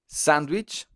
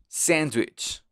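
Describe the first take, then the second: First: Sandwich with an open Spanish a; Spanish pronunciation. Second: Sandwich with the a leaning toward e; English pronunciation. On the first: Teacher giving the Spanish word first, Spanish-sounding sandwich. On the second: Teacher contrasting with Spanish, English-sounding sandwich. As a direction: say sandwich nearly as sendwich. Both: Shown as a demonstration. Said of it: "la A suena un poco más como una E".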